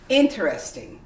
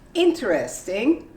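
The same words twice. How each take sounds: First: The word is said with three syllables. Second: The word is said with four full syllables. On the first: "the most common way would be interesting. You completely omit the E" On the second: "you might say interesting if it's a question"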